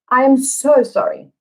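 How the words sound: The word so carries the main stress. The apology is intensified. "what meaning does the sentence have with the emphasis on so?"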